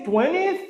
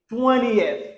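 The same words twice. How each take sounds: First: "twentieth" squashed to "TWEN-ith", pitched higher; mispronounced twentieth. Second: "twentieth" drawn out as "TWEN-ee-eth"; correct three-syllable twentieth. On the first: Teacher shows learners what to avoid, "twentieth" mispronounced as "TWEN-ith". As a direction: drop the "ee-eh" from "twentieth", ending in "-ith". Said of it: "Au lieu de dire twentieth". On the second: Teacher models it for learners, slow "twentieth" as "TWEN-ee-eth". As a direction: give "twentieth" a clear "ee-eth" ending, slowly. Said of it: "on dit twentieth". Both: Shown as a demonstration.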